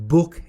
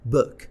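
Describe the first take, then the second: First: The vowel is a long oo sound. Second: The vowel is a short throaty u sound. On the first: The speaker calls it wrong. "book اشتباهه" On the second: The speaker calls it right. "میگن book. او همون او رو تلفظ میکنن اما از حلق"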